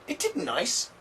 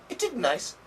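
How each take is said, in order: First: Isn't is said with a d sound. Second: Isn't is said with a d sound.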